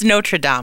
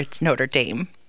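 First: It is said with a French pronunciation. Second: It is said with an American pronunciation. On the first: This is how it is said abroad. "But it's Notre Dame over there" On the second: This is how it is said locally. "And then over here, it's Notre Dame"

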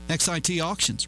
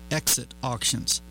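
First: XIT is not pronounced like the word exit. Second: XIT is pronounced like the word exit. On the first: The speaker calls it right. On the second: The speaker calls it wrong.

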